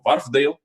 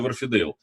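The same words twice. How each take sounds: First: It is said English-style, with letters reduced. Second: It is said Russian-style, sounding every letter. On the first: This is how it is said in English. "если по-английски, то это Wharfedale" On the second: This is how it is customarily said in Russia. "У нас принято Wharfedale говорить"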